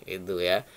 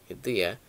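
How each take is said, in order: No difference in how they are said.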